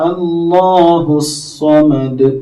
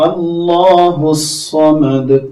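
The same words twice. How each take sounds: Both takes have the same delivery.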